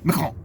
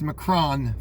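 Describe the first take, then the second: First: The final syllable is quick and barely audible. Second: The final syllable is pronounced fully and clearly. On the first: This is how the French say the name. "they don't say the last part. And like you can barely hear it" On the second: This is how Americans say the name. "that's Macron for us Americans"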